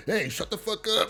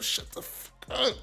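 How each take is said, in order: First: Said in the usual way. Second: Slow hissed whisper; mouthed whisper. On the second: Retold or imitated. Rock silently warning Kanan across the room, slow whisper. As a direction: breathe it through your teeth so only he hears.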